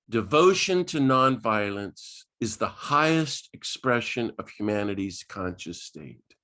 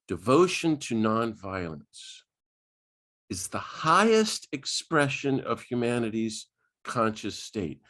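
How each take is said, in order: First: It is said at a normal speed. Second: It is said slowly and deliberately.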